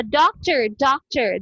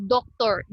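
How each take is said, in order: First: "doctor" as DAWK-ter with a schwa ending; American pronunciation. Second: "doctor" as dok-TOR with a full O in the ending; wrong local pronunciation. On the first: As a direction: say "doctor" with a weak, r-coloured last syllable. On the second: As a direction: say "doctor" with two round O vowels. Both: Shown as a demonstration. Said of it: "Dili siya doctor".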